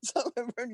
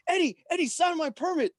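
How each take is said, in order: First: Repeating it through a laugh; amused chuckling repeat; laughing echo. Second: High, pleading fan voice; eager begging. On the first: Real, not acted. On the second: Retold or imitated. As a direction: beg like a starstruck kid. Cousin begging for autograph.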